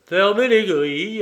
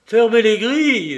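First: Calmly repeating the yelled order, still raised; mock the panic with cool agreement; cool, amused echo of the shout. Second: Panicked yell, much louder and higher; frantic shouted command. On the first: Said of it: "approuva Lupin calmement". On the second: Acted. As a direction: scream the order across the yard. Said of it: "hurla Béchou".

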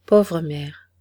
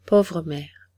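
First: A touch of sorrow, louder on pauvre; mild sigh of mourning for his mother; sighing grief. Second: Sighing grief. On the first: Young acrobat tells the crowd of his lost mother, mildly sorrowful. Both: A narrator's reading. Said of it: "avec un profond soupir".

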